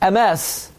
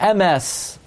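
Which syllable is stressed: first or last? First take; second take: last; first. First: The stress is on the last syllable. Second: The stress is on the first syllable. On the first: The speaker calls it right. "There's only one exception" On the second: The speaker calls it wrong. "There's no word MS"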